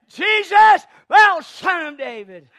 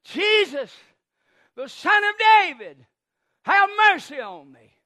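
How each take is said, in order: First: Very high, full-volume shout; crying even louder. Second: Loud, raised call of a blind beggar; pleading shout, falling away at the end; crying out. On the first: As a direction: yell to be heard over everyone. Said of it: "But he cried even louder". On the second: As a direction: call out over a crowd for mercy. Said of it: "I imagine Bartimaeus as he cries". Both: Acted.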